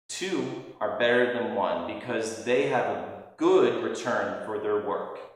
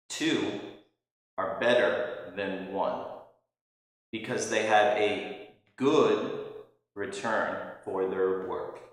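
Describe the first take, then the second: First: It is said at a normal pace. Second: It is said slowly and deliberately.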